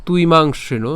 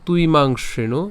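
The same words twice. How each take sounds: The two takes are said the same way.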